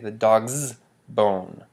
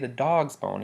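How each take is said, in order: First: The stress falls on the possessive 's ending. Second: The stress falls on the word dog. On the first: It highlights the possession itself. The speaker calls it wrong. "you can't say the dog's bone to stress that the possession" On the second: It highlights whose bone it is. The speaker calls it right. "have stress on the dog"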